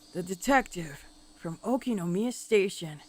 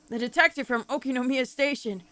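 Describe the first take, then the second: First: The line is read at a slower pace. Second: The line is read at a faster pace.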